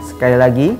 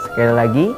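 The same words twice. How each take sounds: The two takes are said the same way.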